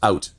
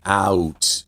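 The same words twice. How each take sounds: First: It is said in a Canadian accent, mouth more closed. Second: It is said in an American accent, mouth open wide.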